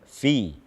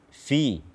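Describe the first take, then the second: Both takes have the same delivery.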